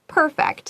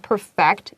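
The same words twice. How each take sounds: First: The stress is on the first syllable. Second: The stress is on the second syllable. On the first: It describes something as flawless. "当形容词的时候 perfect 重音在第一个音节" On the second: It means to make something flawless. "当动词的时候 ，perfect 重音在第二个音节"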